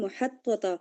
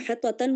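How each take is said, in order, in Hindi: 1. शब्द का अंत एक सादा a स्वर पर होता है। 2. शब्द के अंत में एक जोड़ी गई n ध्वनि है। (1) "तो उस पर एक ज़बर होगी" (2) "अब यहाँ पे मुहत्ततन नहीं हुआ है"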